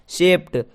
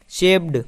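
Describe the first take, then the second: First: शेप्ड ending crisply in an unvoiced T; correct pronunciation. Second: शेप्ड with a voiced D ending; wrong pronunciation. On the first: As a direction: say शेप्ड as "shept", ट at the end. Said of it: "क्या होता है?". (शेप्ड का सही उच्चारण, अंत में ट) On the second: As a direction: end शेप्ड on ड, as in a common mistake. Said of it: "तो कुछ लोग इसे शेप्ड". (शेप्ड का गलत उच्चारण, अंत में ड) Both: Shown as a demonstration.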